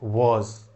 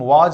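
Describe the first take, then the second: First: The word ends with a buzzing 'z' sound. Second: The word ends with a plain 'j' sound. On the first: The speaker calls it right. "Correct pronunciation is वॉज, नुक्ता वाला ज आता है" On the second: The speaker calls it wrong. "हम वाज नहीं पढ़ते"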